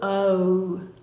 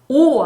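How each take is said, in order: First: The vowel glides as the lips round smaller. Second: One steady vowel with the lips unchanged. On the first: The speaker calls it right. "입이 변해야 돼" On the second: The speaker calls it wrong. "잘못 발음하는 경우가 많아요"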